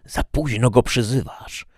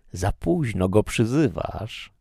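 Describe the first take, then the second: First: High, louder devilish cry; shrieking Satan. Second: Slow, higher devilish taunt; drawn-out, restrained shriek of a devil; mild shriek. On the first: Satan mocks the prisoner's late appeal, shrieking. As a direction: shriek it as the devil, raised and forceful. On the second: Satan tells the prisoner it is too late, mild slow shriek. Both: A narrator's reading. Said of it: "wrzasnął szatan".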